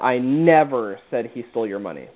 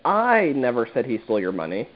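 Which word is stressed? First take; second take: never; I. First: The word "never" carries the stress. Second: The word "I" carries the stress. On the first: The denial sounds overdone and guilty. "now it sounds like you're almost protesting too much" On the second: Someone else said it. "that is implied that, you know, I never said it, but potentially someone else did"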